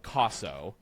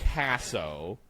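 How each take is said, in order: First: The first vowel has a pure Roman sound. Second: The first vowel has an anglicized American sound. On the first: This is the more correct form. The speaker calls it right. "if you're saying it more correctly, it'd be the Roman vowel" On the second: This is the usual way in America. The speaker calls it wrong. "traditionally here in America we say Casso"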